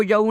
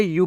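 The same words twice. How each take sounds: First: यू misread letter by letter as "ya-oo"; wrong reading of YOU. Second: यू as one long "yoo" syllable; correct reading of YOU. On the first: Teacher showing learners what to avoid, यू misread as "ya-oo". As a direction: break यू into a mistaken "ya-oo". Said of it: "नहीं पढ़ना है". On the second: Teacher giving learners the right reading, यू as "yoo". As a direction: say यू simply as "yoo". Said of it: "इसे आपको क्या पढ़ना". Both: Shown as a demonstration.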